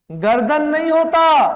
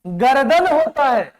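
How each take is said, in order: First: गर्दन with र and द joined, gar-dan; emphatic गर्-दन, no vowel after र; wrong pronunciation. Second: गर्दन opened out as ग-र-दन; three-part ga-ra-dan for गर्दन; correct pronunciation. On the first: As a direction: say गर्दन in two tight syllables. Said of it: "गर्दन होता है।". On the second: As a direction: put a vowel after the र in गर्दन. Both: Shown as a demonstration.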